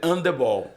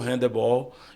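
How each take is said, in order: First: The initial H is silent. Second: The initial H is pronounced. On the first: This is the form used in Portugal. "mas sem o, o português é handebol" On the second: This is the form used in Brazil. "a gente colocou o, o- a pronúncia do H, se tornou handebol"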